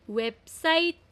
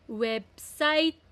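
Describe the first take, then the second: No difference in how they are said.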